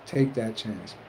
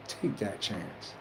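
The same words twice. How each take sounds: First: Said in the usual way. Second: Much softer, slow and intent; soft slow encouragement; hushed urging. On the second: Real, not acted. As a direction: press it home almost under the breath. Urging listeners, repeated line.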